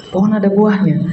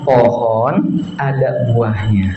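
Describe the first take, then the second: First: Said in the usual way. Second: Drawn out slowly in a low voice. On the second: Shown as a demonstration. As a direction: stretch "Pohon ada buahnya" slowly and lower, like building suspense. (pelan dan rendah, penuh ketegangan)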